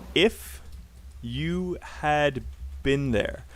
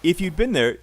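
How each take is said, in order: First: 'Had' is said as a separate full word. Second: 'Had' is shortened into 'you'd'. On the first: The speaker calls it wrong. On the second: The speaker calls it right.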